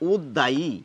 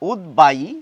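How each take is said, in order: First: The middle consonant is a doubled d sound. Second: The middle consonant is d followed by b. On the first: The speaker calls it wrong. "এইরকম করে বলার কথা এই শব্দটির, কিন্তু তা একেবারেই নয়" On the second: The speaker calls it right. "বয়ের উচ্চারণ রক্ষিত হবে, দ্বিত্ব হবে না"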